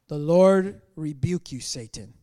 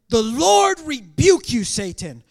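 First: It is read in a plain, low-energy way. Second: It is read in a forceful, dramatic way. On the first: The speaker calls it wrong. "this is way too epic for me to read it that way" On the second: The speaker calls it right. "Let's do this again"

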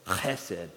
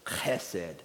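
First: It starts with a raspy Hebrew throat sound. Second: It starts with a raspy Hebrew throat sound.

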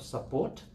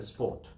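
First: The first vowel is kept, giving two syllables. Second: The first vowel is dropped, giving one syllable. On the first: The speaker calls it right. "instead of support" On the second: The speaker calls it wrong. "So that's obviously the wrong pronunciation"

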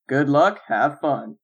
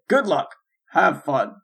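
First: The phrase runs on with no break inside. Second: The phrase splits in two with a break. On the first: It is said as one sentence. "his inflection sounds like he's saying" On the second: It is said as two separate things. "instead of just saying ... Like two separate things"

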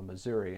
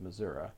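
First: It uses the urban pronunciation of the name. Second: It uses the rural pronunciation of the name. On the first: The speaker is from a city area. "you evidently fall down on the Missouri" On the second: The speaker is from a rural area. "instead of Missouri"

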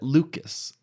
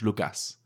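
First: The name is said with an American accent. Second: The name is said with a Spanish accent. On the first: "as Americans said it" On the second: "as we say it in Spanish"

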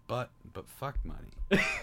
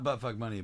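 First: There is a pause between the two words. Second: The two words run together without a pause. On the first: The speaker calls it right. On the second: The speaker calls it wrong.

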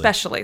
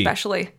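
First: The word begins with a plain 'es' sound. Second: The word begins with an 'egg' sound. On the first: The speaker calls it right. "That's especially how it's pronounced" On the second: The speaker calls it wrong. "Egg-specially with egg a G"

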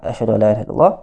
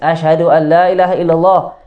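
First: It is said softly, almost under the breath. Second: It is said loudly, as if to people.

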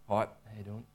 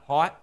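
First: It is said quietly and low. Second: It is said louder.

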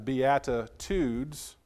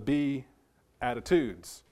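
First: It is said as one joined word. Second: It is split like 'be' plus 'attitudes'. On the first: It names the blessings in the Beatitudes. The speaker calls it right. "understand it's the beatitudes" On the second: It suggests attitudes one should have. The speaker calls it wrong. "not the beatitudes"

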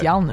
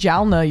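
First: The J at the start is silent. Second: The J at the start is sounded. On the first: The speaker calls it right. "Like Jalna" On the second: The speaker calls it wrong. "It's not Jalna yogurt"

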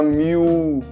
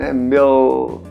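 First: The final L sounds like a U vowel. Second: The final L is a clear tongue-tip L. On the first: The speaker calls it wrong. "Em português a gente fala miu, com som de u mesmo. Não é essa a pronúncia no inglês" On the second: The speaker calls it right. "Você coloca a língua no céu da boca para falar esse L"

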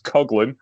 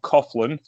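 First: The name is not said the English-Irish way. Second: The name is said the English-Irish way. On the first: The speaker calls it right. "It's Coughlin" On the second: The speaker calls it wrong. "not Coughlin, like, you know, the English and Irish pronunciation"

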